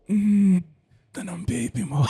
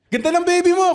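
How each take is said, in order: First: It is said in a creepy, leering way. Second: It is said in a plain, friendly way.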